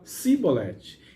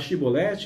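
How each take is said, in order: First: The word begins with an 's' sound. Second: The word begins with a 'sh' sound. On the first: The speaker is an outsider. "ele falava Sibolete" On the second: The speaker is from the home group. "no lugar de falar Shibolete"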